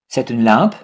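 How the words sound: The voice rises at the end.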